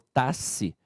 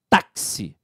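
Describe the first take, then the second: First: The X is pronounced as a single sound. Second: The X is pronounced as 'ks'. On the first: The speaker calls it wrong. "Eu não falo taxi" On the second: The speaker calls it right. "eu falo táxi; aquele X ali tem som de K S"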